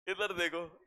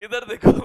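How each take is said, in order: First: Said in the usual way. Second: Loud sharp call to the class; loud classroom call. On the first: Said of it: "same call repeated calmly". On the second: Real, not acted. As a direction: snap their attention to the board. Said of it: "calling class to attention".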